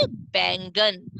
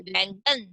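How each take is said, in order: First: "बैंगन" slowly, opening on a clear b; "बैंगन" with lips closed for the first b; correct ब sound. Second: "बैंगन" mispronounced as vaingan, questioning; "बैंगन" with a mistaken va at the start; wrong व sound. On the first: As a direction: draw out "बैंगन" as baingan. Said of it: "गोले में line बन गई". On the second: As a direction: open "बैंगन" on v instead of b. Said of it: "नहीं।". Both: Shown as a demonstration.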